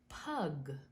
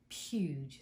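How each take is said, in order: First: The first syllable sounds like 'pug'. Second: The first syllable sounds like 'pyooj'. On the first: The speaker calls it wrong. "I wasn't sure how to pronounce that because I said pug" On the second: The speaker calls it right. "but it's puge"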